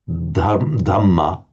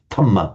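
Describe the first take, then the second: First: The first consonant is voiced. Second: The first consonant is voiceless. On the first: "English speakers find it difficult to say the sounds" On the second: "the Thais just unvoice it"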